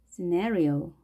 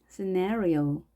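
Both takes have the same delivery.

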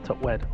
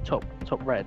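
First: The second word begins with a W sound. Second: The second word begins with a clear R sound. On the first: "they'll say top wed" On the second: "they don't say top red"

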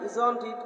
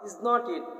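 First: The words are run together as isn't it. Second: Each word is said separately as is not it. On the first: "একসাথে করলে বলা হয় ইজন্ট ইট" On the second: "অর্থাৎ ইজ নট ইট"

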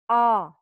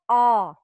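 First: The vowel is deep and full, like ah. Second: The same.

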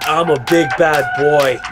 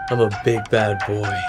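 First: It is said louder. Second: It is said at normal, softer volume.

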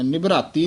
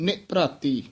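First: The word is run together without any break. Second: There is a slight break after the first syllable. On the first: The speaker calls it wrong. "ਨਿਭਰਾਤੀ ਨਹੀਂ ਬੋਲਣਾ" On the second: The speaker calls it right. "ਨੰਨੇ ਤੋਂ dash ਦੇ ਕੇ ਉਚਾਰਨ ਕਰਨਾ ਹੈ"

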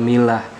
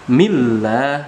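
First: The l sound is short and single. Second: The l sound is held long and doubled. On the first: The speaker calls it wrong. "bukan milah" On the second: The speaker calls it right. "jadi lamnya ada dua"

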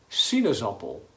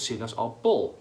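First: The stress falls on the first syllable. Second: The stress falls on a later syllable. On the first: The speaker calls it right. "de klemtoon ... is op si" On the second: The speaker calls it wrong. "Niet bijvoorbeeld sinaasappel"

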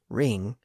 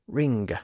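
First: It ends in a nasal with no g sound. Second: It ends with a distinct hard g sound. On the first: This is the modern pronunciation. "instead of saying ring" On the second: This is the older pronunciation. "they said ring"

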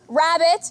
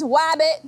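First: The word starts with an R sound. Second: The word starts with a W sound. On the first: The speaker calls it right. "rabbit becomes wabbit" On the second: The speaker calls it wrong. "rabbit becomes wabbit"

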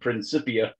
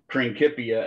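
First: The c is said as a soft s. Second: The c is said as a hard k. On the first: The speaker calls it wrong. "as opposed to Principia, because there is no soft K or C sound in Latin" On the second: The speaker calls it right. "That's why we pronounce that word Principia"

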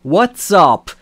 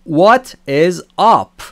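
First: The word is is shortened to an s sound. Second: The word is is said in full.

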